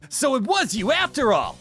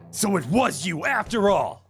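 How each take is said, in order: First: It is said in a higher-pitched voice. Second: It is said in a lower-pitched voice.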